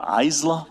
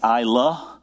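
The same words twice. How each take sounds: First: The first syllable does not sound like 'eye'. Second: The first syllable sounds like 'eye'. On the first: The speaker calls it wrong. "or Isla" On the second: The speaker calls it right. "It's Isla. And she wrote out I and then La"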